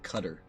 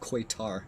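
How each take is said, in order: First: The name starts with a plain 'k' sound. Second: The name starts with a 'kw' sound. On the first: This is how people who served in the region say it. "apparently they call it Cutter" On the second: This is the common spelling-based pronunciation. "spelled like that, which is the way I think most would pronounce"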